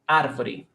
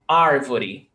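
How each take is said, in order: First: The R is rolled with the tongue. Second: The R is neither breathy nor rolled. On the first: This is how it is said in the city of São Paulo. "One from the capital of São Paulo is ar. They roll the tongue" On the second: This is how it is said in inland São Paulo, Minas Gerais and Goiás. "in the country of São Paulo, of Minas Gerais, Goiás, they do ar"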